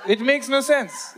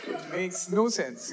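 First: Louder, slow: it makes no sense; slow emphatic yell. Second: Softer, drawn-out: it makes no sense; slow quiet repeat. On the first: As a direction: drag it out and shout it. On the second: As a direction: let it fade, slowly. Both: Shown as a demonstration.

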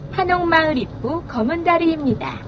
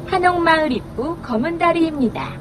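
Both takes have the same delivery.

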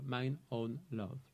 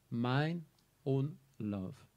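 First: "mine own love" slow and soft, leaning on "mine"; stress on mine. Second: Said in the usual way. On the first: Shown as a demonstration. Teacher shows the stress on "mine own love", slow and soft. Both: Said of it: "deux fois, mine own love".

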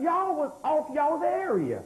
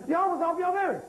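First: Slow, drawn-out, each word of Y'all was off y'all's area leaned on; slow emphatic. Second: Said in the usual way. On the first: Shown as a demonstration. Preacher slowly hammering home Y'all was off y'all's area. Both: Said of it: "repeated for the crowd".

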